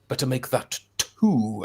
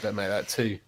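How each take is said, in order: First: The t sounds are fully and crisply pronounced. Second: The t sounds are relaxed into glottal stops. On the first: The speaker calls it wrong. "there's two T's here, so I'm gonna say them" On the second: The speaker calls it right. "you could just say"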